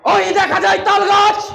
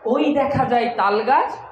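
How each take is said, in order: First: It is declaimed like a politician's speech. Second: It is recited like an ordinary poem.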